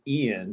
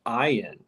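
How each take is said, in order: First: The name does not begin with 'eye'. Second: The name begins with an 'eye' sound. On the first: This is the usual reading of the spelling. The speaker calls it wrong. "That's how most people would pronounce it" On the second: This is how the name's owner says it. The speaker calls it right. "but it's pronounced Ian"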